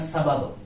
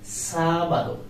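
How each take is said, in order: First: The stress is on the second syllable. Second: The stress is on the first syllable. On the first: The speaker calls it wrong. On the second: The speaker calls it right. "you have to give accent of the letter A"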